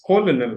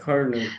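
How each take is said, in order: First: "colonel" sounded out as spelled, "co-lo-nel"; the misread "colonel", no R; read as written. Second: "Colonel" said like "kernel"; "Colonel" with an R sound for the first L; learned pronunciation. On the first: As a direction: say "colonel" in three syllables with both L's. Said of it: "C O L O N E L". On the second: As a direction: say "Colonel" in two syllables, "ker-nel". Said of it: "oh, it's lieutenant colonel". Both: Shown as a demonstration.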